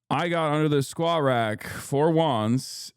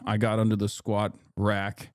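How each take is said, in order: First: "I got under the squat rack" slower and higher, leaning on SQUAT; emphatic repeat. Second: Said in the usual way. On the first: Real, not acted. Streamer explaining lateness to viewers, emphatic repeat with stress on "squat". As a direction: punch "squat rack", stretching out "for once".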